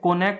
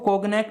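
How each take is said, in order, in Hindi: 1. बीच में कोई 'g' की आवाज़ सुनाई नहीं देती। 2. बीच में 'g' की आवाज़ बोली जाती है। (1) "जी साइलेंट है, कोनैक बोला जाएगा" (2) "इसको कोगनैक नहीं बोला जाएगा"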